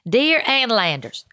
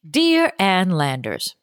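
First: It is said in a Southern American accent. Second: It is said in the speaker's ordinary accent.

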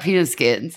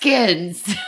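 First: The T in peanut is dropped. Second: The T in peanut is clearly pronounced. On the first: The speaker calls it wrong. "because you're like penis skins" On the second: The speaker calls it right. "There's a T"

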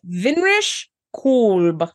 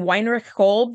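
First: The first name starts with a V sound. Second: The first name starts with a W sound. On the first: The speaker calls it right. "It's Vinrich Kolb" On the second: The speaker calls it wrong. "I've been saying Weinrich Kolb the whole time"

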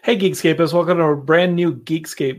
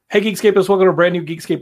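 First: It is said slowly and clearly. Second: It is said fast, run together like one word. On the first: "this is the part of the show that I have to like slow down" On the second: "I got to get like really fast"

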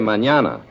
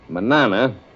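First: The middle consonant is an NY sound. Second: The middle consonant is a plain N sound. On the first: The speaker calls it right. "you should say manana" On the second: The speaker calls it wrong. "Instead of saying manana"

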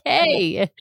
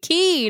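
First: The word is pronounced like 'kay'. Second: The word is pronounced like 'key'. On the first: The speaker calls it wrong. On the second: The speaker calls it right. "they pronounce it correctly"

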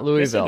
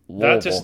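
First: The name is said with every syllable in full. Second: The name is swallowed low in the throat. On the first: The speaker calls it wrong. "It's not Louisville" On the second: The speaker calls it right. "Like it's something in your throat"

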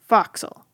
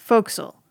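First: It is said with a New England accent. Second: It is said in a short, reduced form. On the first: "if you're from some parts of New England" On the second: "but it's pronounced forecastle"

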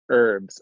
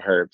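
First: The word begins with a vowel, no h sound. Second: The word begins with an audible h sound. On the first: The speaker calls it wrong. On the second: The speaker calls it right.

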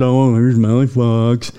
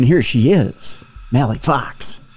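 First: It is said with low, flat energy. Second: It is said with high, hyped-up energy.

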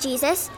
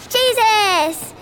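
First: The word is said flatly, without exclamation. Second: The word is said with an exclamation. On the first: The speaker calls it wrong. "they don't say Jesus" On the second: The speaker calls it right. "Do you see the exclamation point?"

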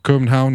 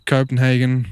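First: It is said with a foreign pronunciation. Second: It is said with an English pronunciation.

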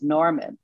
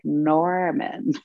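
First: The r sound in the name is pronounced. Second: The r sound in the name is dropped. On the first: "Your new name is Norman" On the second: "they didn't have R's in our language. So it sounded so funny"

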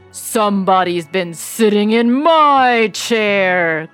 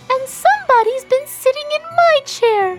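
First: It is said in a deep, growling voice. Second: It is said in a high, squeaky voice.

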